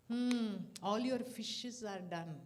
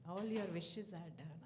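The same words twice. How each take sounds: First: Slow, deliberate blessing voice. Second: Said in the usual way. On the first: Retold or imitated. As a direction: bestow it slowly like a guru. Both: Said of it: "he told me".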